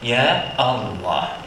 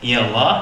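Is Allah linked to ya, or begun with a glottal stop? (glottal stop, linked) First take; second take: glottal stop; linked. First: Allah begins with a glottal catch after ya. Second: Ya runs straight into Allah without a catch. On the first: The speaker calls it right. "itu membacanya" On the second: The speaker calls it wrong. "Ya Allah itu tidak dibaca seperti ini"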